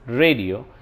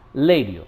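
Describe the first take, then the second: First: The word starts with an R sound. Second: The word starts with an L sound. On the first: The speaker calls it right. "Instead of saying red, romance, radio" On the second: The speaker calls it wrong. "they have a problem pronouncing R as L"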